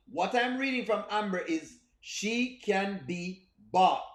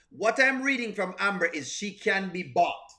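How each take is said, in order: First: Slow and deliberate, hammering it home; slow emphatic repeat. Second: Said in the usual way. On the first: Shown as a demonstration. Streamer repeating his verdict on Amber, slowly. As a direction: let each word land slowly. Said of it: "slowed emphatic repeat". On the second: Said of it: "repeats line for emphasis".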